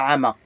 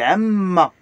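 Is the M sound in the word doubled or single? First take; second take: single; doubled. First: The M is short and single. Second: The M is held long and doubled. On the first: The speaker calls it wrong. "C'est pas Amma" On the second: The speaker calls it right. "Il y a le double M pour appuyer, pour prononcer une deux M, mais lié"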